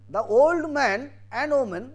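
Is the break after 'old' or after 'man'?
after man. The phrase breaks after 'man'.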